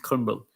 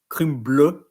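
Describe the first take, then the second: First: It is pronounced the English way. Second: It is pronounced the French way. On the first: The speaker calls it right. "we pronounce crumble" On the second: The speaker calls it wrong. "we don't pronounce uh, crumble"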